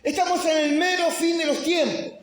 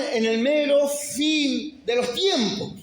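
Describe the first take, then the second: First: High preaching shout on ESTAMOS. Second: Slow, high preaching line; measured preaching. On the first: Pastor proclaiming the end of times, full preaching shout. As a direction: hammer it home to the congregation. Repeat of line, now shouted. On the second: Pastor warning the church of the end times, slow preaching. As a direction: lay it down slowly before the build. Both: Acted.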